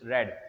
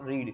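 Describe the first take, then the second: First: The vowel is short, as in 'red'. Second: The vowel is long, as in 'reed'. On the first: It is the past-tense form. The speaker calls it right. "it's read. ... Second form" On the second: It is the present-tense form. The speaker calls it wrong. "It's not read"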